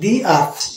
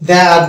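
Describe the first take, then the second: First: 'The' is said with a long 'ee' vowel. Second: 'The' is said with a short 'uh' vowel. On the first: The speaker calls it right. "ভয়েলের আগে দিকে এটা এখানে দি আট বলবো" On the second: The speaker calls it wrong. "দা আট বলবো না"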